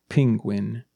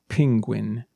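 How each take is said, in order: Both takes have the same delivery.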